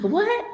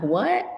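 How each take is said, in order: First: A high, squeaky disbelieving what; laughing, exaggerated retold shock. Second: A light questioning what, slightly raised; a hint of retold surprise; mild surprise. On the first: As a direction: jump way up in pitch, stunned. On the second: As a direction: react with mild disbelief. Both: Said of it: "And I'm like".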